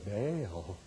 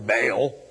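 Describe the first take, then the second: First: The word is said carefully and reverently. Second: The word is said plainly and bluntly. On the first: "They probably were very careful in the way they pronounced it" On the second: "They didn't say it the way I do"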